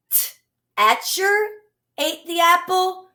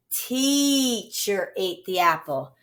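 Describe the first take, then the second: First: Teacher said as tetcher, higher; "teacher" with a short eh, tetcher, pitched up; wrong short e. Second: Teacher with long ee, slow and soft; "teacher" said teecher, long ee, slowly; right long e. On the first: Teacher showing the wrong reading, tetcher with short eh. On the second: Teacher giving the right reading, long ee, slowly. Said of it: "or the". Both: Shown as a demonstration.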